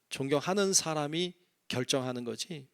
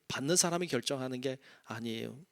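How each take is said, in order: First: 존경하는 lifted with a rise; stress on contrast. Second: 사람이 weighted, softer falling close; contrasting denial. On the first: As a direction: lean on 존경하는 then rise at the end. (존경하는 에 힘주고 끝을 올려) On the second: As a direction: set 받는 사람이 against the first half. (받는 사람이 를 대비해 낮게 끝맺기) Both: Shown as a demonstration.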